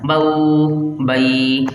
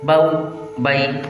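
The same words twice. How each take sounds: First: The vowel glide is stretched out long. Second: The vowel glide is short and smoothly released. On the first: The speaker calls it wrong. "ये खींचना हो गया।" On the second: The speaker calls it right. "बल्कि नरमी से मारूफ पढ़ना है। किस तरह, इस तरह"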